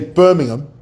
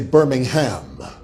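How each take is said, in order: First: It is said the British English way. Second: It is said the American English way. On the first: It names the city in England. "in England, they say" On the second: It names the city in Alabama. "In America, they say"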